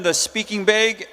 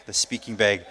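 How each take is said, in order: First: Said in the usual way. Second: Much lower, softer aside; low amused mutter. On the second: Real, not acted. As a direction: mutter the slip to yourself, low. Repeats own slip to himself.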